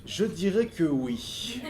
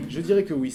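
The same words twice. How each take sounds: First: Very slow, drawn-out words; hesitant answer. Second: Said in the usual way. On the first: Real, not acted. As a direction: weigh the answer slowly as you give it. Hesitant answer, then said normally. (réponse hésitante, très lente)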